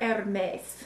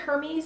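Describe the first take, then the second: First: The name is pronounced the French way. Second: The name is pronounced the English way.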